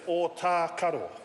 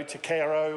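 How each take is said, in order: First: The marked vowels are said long. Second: The marked vowels are said short. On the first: The speaker calls it right. "we've got macrons over the or and over the R. So let's say it's Otakaro" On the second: The speaker calls it wrong. "I've heard uh, Otakaro and o- Otakaro or other, other different uh, variations"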